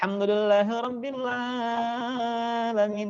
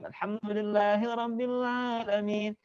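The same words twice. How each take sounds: First: The long vowels are stretched out too long. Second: The long vowels are held only briefly. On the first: The speaker calls it wrong. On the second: The speaker calls it right.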